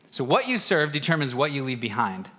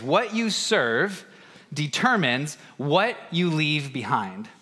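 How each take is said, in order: First: Said in the usual way. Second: Slow, weighty delivery of the key phrase; deliberate slow proclamation; slow emphatic phrase. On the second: Shown as a demonstration. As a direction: lay it down slowly, word by word. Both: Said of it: "this phrase".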